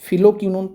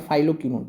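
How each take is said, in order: First: The first syllable has a short 'fi' sound. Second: The first syllable has a long 'fye' sound. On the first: "फिलोक्विनोन पढ़िए" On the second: "या फाइलोक्विनोन पढ़िए, एक ही बात है"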